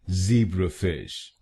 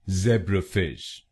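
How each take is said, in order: First: It is said with an American accent. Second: It is said with a British accent.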